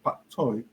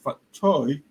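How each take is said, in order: First: The first word begins with a P sound. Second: The first word begins with an F sound. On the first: This is how it is said in Cantonese. "Some say P A I" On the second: Some places call the vegetable this way. "some say F A T T"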